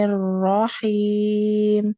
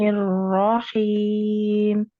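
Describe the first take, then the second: No difference in how they are said.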